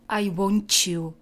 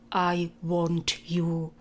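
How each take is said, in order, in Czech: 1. T a y splývají do měkkého zvuku podobného ch. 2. T a y se říkají jako oddělené hlásky. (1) "tyhle dvě souhlásky se spojí a ta tvrdá se změkčí" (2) "místo"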